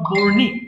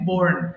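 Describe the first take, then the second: First: The word ends with an extra ee vowel. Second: The word ends plainly on the n sound. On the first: The speaker calls it wrong. "It's not borny" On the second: The speaker calls it right. "it's simply born"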